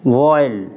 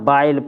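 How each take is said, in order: First: The vowel is an open aw gliding to ee. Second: The vowel is an ah gliding to ee. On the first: The speaker calls it right. "उच्चारण अ ए अ ए हो जाता है" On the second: The speaker calls it wrong. "न बाइल पढ़ रहे"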